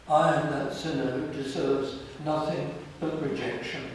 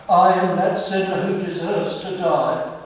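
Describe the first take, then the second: First: Said in the usual way. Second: Loud, pleading confession of guilt; anguished confession. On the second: Retold or imitated. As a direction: cry out I am that sinner. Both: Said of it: "we come into his presence and we say".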